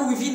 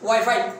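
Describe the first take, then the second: First: The word is said as 'wee-fee'. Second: The word is said as 'why-fye'. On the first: The speaker calls it wrong. "না উইফি" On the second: The speaker calls it right. "না ওয়াইফাই"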